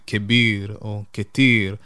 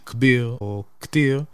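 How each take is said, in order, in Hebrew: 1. יש תנועה אחרי העיצור הראשון של כל מילה. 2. אין תנועה אחרי העיצור הראשון של כל מילה. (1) "המצרים יבחרו להגיד כביר או כתיר, ככה שממש גם יש את התנועה על האות הראשונה" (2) "כמו שאומרים בהרבה להגים אחרים"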